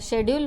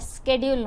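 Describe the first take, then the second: First: British pronunciation beginning with a 'sh' sound. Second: American pronunciation beginning with an 'sk' sound. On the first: "British इंग्लिशमध्ये आपण त्याला शेड्यूल म्हणतो" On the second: "American इंग्लिशमध्ये त्याला स्केड्यूल म्हणतात"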